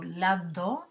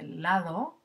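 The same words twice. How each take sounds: First: "lado" with a hard stopped d like in "andar"; "lado" with an occlusive d. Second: "lado" with a soft fricative d, like "th" in "this". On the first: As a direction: say "lado" with the tongue fully closing on the d. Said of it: "con un sonido oclusivo y digo lado". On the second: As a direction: let the d in "lado" barely touch. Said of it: "en lugar de lado". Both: Shown as a demonstration.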